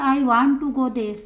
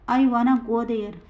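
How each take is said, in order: First: 'Want to' is said as two full words. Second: 'Want to' is reduced to one word, 'wanna'. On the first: "बिना contraction के कैसे बोलते हैं" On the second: "contraction का use करके कैसे बोलते हैं"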